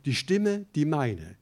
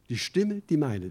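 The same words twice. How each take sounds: First: Stimme drawn out slowly and leaned on; stress on Stimme. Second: Rising emphatic Stimme; stress on Stimme. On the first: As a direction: dwell slowly on the word Stimme. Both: Shown as a demonstration. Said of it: "Das ist eine Betonung".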